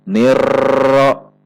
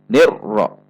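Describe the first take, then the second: First: The r is held with steady constant pressure. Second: The r is cut off with an abrupt jolt. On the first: "Tidak dibaca dengan tekanan yang tetap" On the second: "Atau dibaca dengan terhentak"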